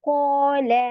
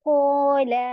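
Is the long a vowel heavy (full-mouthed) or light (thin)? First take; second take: heavy; heavy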